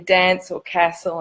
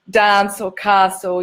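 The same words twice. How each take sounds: First: They are said in the local non-New Zealand accent. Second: They are said in a New Zealand accent. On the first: This is the way the teacher insisted on. "you say dance or castle" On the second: This is the speaker's own way of saying the words. "you don't say dance or castle"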